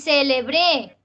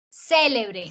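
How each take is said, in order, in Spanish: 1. El acento está en la última sílaba. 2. El acento está en la primera sílaba. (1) "Esa sería aguda" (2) "Esdrújula"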